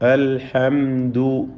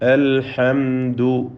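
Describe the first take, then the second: First: The m sound is pronounced clearly and distinctly. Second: The same.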